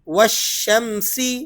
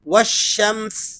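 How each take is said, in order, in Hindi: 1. यह शब्द छोटे स्वर पर समाप्त होता है। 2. यह शब्द बिना स्वर के व्यंजन पर समाप्त होता है।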